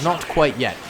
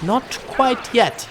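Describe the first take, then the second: First: Said in the usual way. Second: NOT QUITE YET stretched slow and high; teasing drawn-out delivery. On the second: Pretend. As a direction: tease it out slowly, pitched up. Teasing viewers about a surprise.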